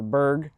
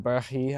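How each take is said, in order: First: The name is said in its short form. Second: The name is said in its longer form. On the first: This is the everyday way people say it. "but it's Berg" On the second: This is the technically correct way to say it. "I think is how you're technically supposed to pronounce it"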